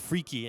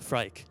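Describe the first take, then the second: First: The name is said with two syllables. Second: The name is said with one syllable. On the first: This is how the developers say it. "why is he pronouncing it as Freaky" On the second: This is how most players say it. "and not Frike"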